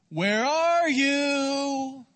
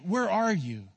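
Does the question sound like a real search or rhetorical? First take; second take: real search; rhetorical. First: It sounds like a genuine search for someone missing. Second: It sounds like a rhetorical, probing, reproachful question. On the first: The asker does not know where they are. The speaker calls it wrong. "God is not saying it like this" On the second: The asker knows and confronts them about what they did. The speaker calls it right. "you would have heard it more like this"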